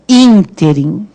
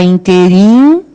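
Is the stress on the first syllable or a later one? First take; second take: first; later. First: The stress is on the first syllable. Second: The stress is not on the first syllable. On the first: The speaker calls it right. "qual é a sílaba tônica? É o in" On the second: The speaker calls it wrong. "fala interim errado"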